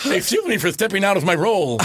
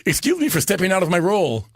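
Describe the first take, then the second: First: Lightly voiced Ed Wynn, higher; Ed Wynn line. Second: Lightly voiced Ed Wynn, higher and quick; a touch of Ed Wynn's goofy politeness; Ed Wynn line. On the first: Retelling the punchline to the hosts, light Ed Wynn voice. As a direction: repeat it in a light Ed Wynn voice through laughter. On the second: Ed Wynn apologizing to Capone's mob, light Ed Wynn voice. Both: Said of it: "goes to the microphone".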